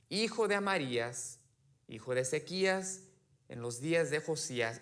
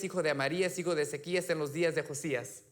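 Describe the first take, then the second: First: It is read at a normal, slower pace. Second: It is read faster, with a rhythmic beat.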